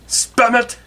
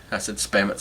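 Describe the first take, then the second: First: Put-on much higher "spam it" in the old Jewish barber accent. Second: Said in the usual way. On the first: Barber finishing his argument, old Jewish accent.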